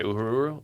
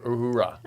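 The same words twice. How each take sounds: First: Uhuru, ending in an oo sound; questioning "Uhuru", oo at the end; mispronounced Uhura. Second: Uhura, ending in an ah sound; corrected name. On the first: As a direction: say "Uhuru" with a final oo, unsure. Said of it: "what did I say?". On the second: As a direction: say "Uhura" with an open final ah. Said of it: "I thought, what did I say?". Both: Shown as a demonstration.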